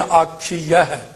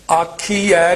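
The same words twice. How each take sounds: First: ਆਖੀਆ ਹੈ slow, as "aakhi-ya-hai"; correct glided ending. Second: ਆਖੀ ਐ ending on bare "ai", rising; wrong bare ending. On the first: Teacher correcting it, slow ਆਖੀਆ ਹੈ with clear ya. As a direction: sound the ya in ਆਖੀਆ ਹੈ, falling. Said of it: "ਦਲਾਈਆਂ ਲਾਉਣੀਆਂ". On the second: Teacher showing what not to say, ਆਖੀ ਐ with bare -ai. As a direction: say "aakhi-ai" without a y glide. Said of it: "ਆਖੀ ਐ ਨਹੀਂ ਕਹਿਣਾ". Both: Shown as a demonstration.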